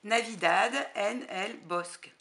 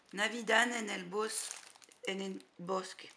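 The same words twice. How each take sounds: First: Spanish title again, louder and rolled out in a Spanish accent; proud Spanish accent. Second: Spanish title read with a Spanish accent, halting on Bosque. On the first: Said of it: "encore plus joli que mon accent anglais". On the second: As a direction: try the Spanish name in a Spanish accent. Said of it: "J'ai un accent, euh, espagnol". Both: Shown as a demonstration.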